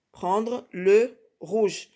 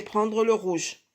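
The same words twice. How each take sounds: First: PRENDRE, LE, ROUGE very slowly with gaps; slow, spaced repeat. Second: Said in the usual way. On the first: Shown as a demonstration. Teacher telling pupils which colour to take, slow spaced repeat. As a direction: dictate "Prendre le rouge" word by word.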